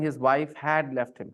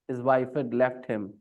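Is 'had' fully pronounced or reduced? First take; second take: full; reduced. First: 'Had' is fully pronounced with stress. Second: 'Had' is reduced and joined to 'wife'. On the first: "Instead of saying" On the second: "This had is not pronounced very uh, with the stress. You just say duh with the subject"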